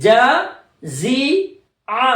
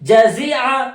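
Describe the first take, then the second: First: It is said slowly, syllable by syllable. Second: It is said quickly, syllables run together. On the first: "मेरे साथ मश्क करें" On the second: "अब थोड़ा स्पीड में बोले"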